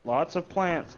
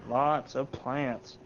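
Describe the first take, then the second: First: Said in the usual way. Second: Drawn-out, very slow emphasis; slow knowing repeat; slow deliberate repeat. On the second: Real, not acted. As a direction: stretch each word out slowly. Repeats the phrase for effect.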